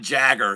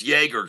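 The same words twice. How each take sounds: First: Jagger with a hard J and short a; Jagger, rhyming with dagger; mispronounced name. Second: Yeager with an initial Y sound; Yeager, Y in place of J; corrected name pronunciation. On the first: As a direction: say Jagger like Mick's surname, J as in jam. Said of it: "your name is not actually". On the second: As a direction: say Yeager starting like yay, not jay. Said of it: "It's not Jagger". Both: Shown as a demonstration.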